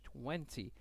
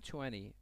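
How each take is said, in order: First: It is said in a British accent. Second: It is said in an American accent. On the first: "بریتیشش" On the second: "امریکنش یا آمریکایی میگن"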